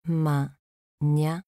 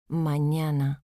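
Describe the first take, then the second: First: "Mañana" split as Ma, ña, na; syllable by syllable. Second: Said in the usual way. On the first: Shown as a demonstration. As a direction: say "Mañana" with a pause after each syllable. ("Mañana" separado en sílabas: ma, ña, na) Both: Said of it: "Separación de sílabas".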